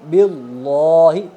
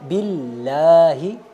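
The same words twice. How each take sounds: First: The L sound is heavy and thick. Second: The L sound is light and thin. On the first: The speaker calls it wrong. "मोटे पढ़ने की मिसाल" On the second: The speaker calls it right. "बारीक"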